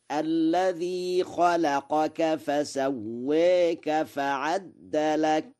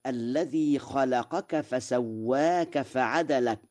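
First: Very slow chant, فعدلك with a doubled د; فسواك with its vowel tilted toward e; Warsh reading, recited. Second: Said in the usual way. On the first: Shown as a demonstration. Quran teacher chanting Warsh's فعدلك. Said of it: "فيقرأ هكذا". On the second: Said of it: "قرأ ورش".

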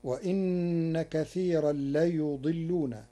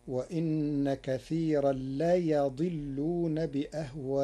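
First: ليضلون with u on ya; ليضلون read as layudillun; reading of Hafs. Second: ليضلون with a on ya; ليضلون read as layadillun; Warsh reading. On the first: (ليضلون بضم الياء) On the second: (ليضلون بفتح الياء) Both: Shown as a demonstration. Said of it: "بفتح الياء".

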